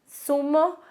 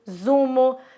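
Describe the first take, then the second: First: The word begins with a voiceless s sound. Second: The word begins with a voiced z sound. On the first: The speaker calls it right. "a pronúncia é a mesma" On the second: The speaker calls it wrong. "não é como é pronunciado no espanhol"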